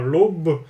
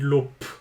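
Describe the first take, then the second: First: The word ends with a voiced b sound. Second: The word ends with a voiceless p sound. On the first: The speaker calls it wrong. "vous ne dites pas" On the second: The speaker calls it right. "vous dites l'op, avec le son p à la fin"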